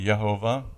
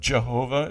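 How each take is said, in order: First: The name begins with a Y sound. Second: The name begins with a J sound. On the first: "Jehovah is really Yehovah" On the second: "it's J here in your Bible"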